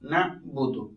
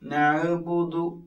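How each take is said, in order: First: The consonant is closed with no added vowel. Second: A short vowel follows the consonant. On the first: The speaker calls it right. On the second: The speaker calls it wrong.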